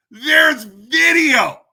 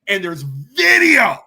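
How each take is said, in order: First: Slow, much higher and louder shout; furious shout. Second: Firm and slow, already raised; emphatic. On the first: Shouting at the diocese that video exists, slow furious shout. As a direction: yell it out, hammering home the proof. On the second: Telling the diocese there is proof, firm slow emphasis. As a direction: say it slowly and firmly, building. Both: Real, not acted.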